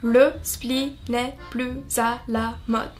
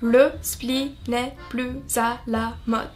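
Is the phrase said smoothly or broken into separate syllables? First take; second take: broken up; broken up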